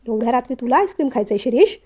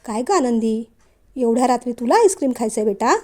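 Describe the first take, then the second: First: Brisk, fast scolding question; stern questioning. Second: Gently lowered, mild questioning; softened voice. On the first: Father confronting son about late-night ice cream, stern and quick. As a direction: fire the question at him sternly. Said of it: "मग मात्र विश्वराजांचा आवाज अगदीच धीमा झाला". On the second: Father gently asking Anandi about ice cream, softened voice. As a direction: ease off and ask her kindly. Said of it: "विश्वराजांचा आवाज अगदीच धीमा झाला". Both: A narrator's reading.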